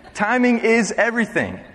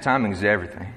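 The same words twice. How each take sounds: First: Said in the usual way. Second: Put-on southern twang accent. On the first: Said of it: "that's what [name] says". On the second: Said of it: "he said in his southern twang accent".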